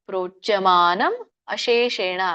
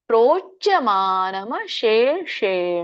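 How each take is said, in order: First: The two words are said separately, unblended. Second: The two words are blended into one.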